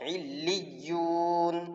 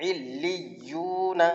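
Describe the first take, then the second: First: The word stops on the final n sound. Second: The word ends with a short vowel after n. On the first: "वक्फ" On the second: "नून ज़बर ना"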